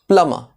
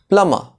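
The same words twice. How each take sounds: No difference in how they are said.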